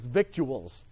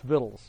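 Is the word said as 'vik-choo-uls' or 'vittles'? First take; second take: vik-choo-uls; vittles. First: It is said as vik-choo-uls, sounding every letter. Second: It is said as vittles, with no c sound. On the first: The speaker calls it wrong. "can't pronounce that word as victuals" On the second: The speaker calls it right. "It's vittles"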